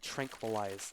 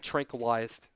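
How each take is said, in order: First: The word is pronounced in a normal way. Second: The word is pronounced in an odd way. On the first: The speaker calls it right. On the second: The speaker calls it wrong.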